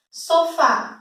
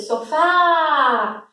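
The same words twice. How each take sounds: First: Said in the usual way. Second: "sofá" called out with a long, drawn-out final "fá"; shouted stressed syllable. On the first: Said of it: "quando eu separo". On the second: Shown as a demonstration. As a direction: stretch and push the last syllable of "sofá". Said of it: "eu grito sofá".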